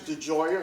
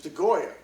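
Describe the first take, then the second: First: The G is pronounced soft, like a J. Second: The G is pronounced hard, as in go. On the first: "some people pronounce it with a soft G" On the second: "Some people pronounce it with a hard G"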